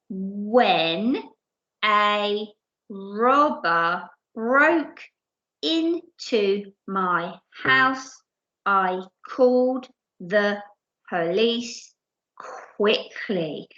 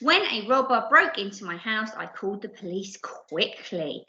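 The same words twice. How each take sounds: First: The sentence is read slowly. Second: The sentence is read at normal speed.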